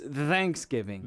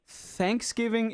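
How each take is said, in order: First: The th at the start is voiced. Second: The th at the start is voiceless. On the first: "th is always like a the sound" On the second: "instead of like Thanksgiving"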